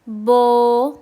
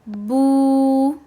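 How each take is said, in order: First: The vowel is an 'o' with less rounded lips. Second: The vowel is a long 'oo' with rounded lips. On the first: The speaker calls it wrong. "मजहूल वॉइस ... ये रॉन्ग है" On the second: The speaker calls it right. "मारूफ वॉइस ... अच्छे से होंठ गोल कर कर पढ़ना है"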